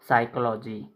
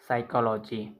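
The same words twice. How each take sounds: The two takes are said the same way.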